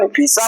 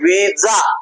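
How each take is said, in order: First: The middle consonant is a hissing s sound. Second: The middle consonant is a buzzing z sound. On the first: The speaker calls it wrong. "आपण व्हिसा म्हणतो का?" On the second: The speaker calls it right. "आपण काय म्हणतो विजा"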